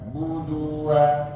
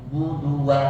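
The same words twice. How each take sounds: First: The vowel before wa is drawn out. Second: The vowel before wa is kept short. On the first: The speaker calls it wrong. "jangan dipanjangin" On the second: The speaker calls it right.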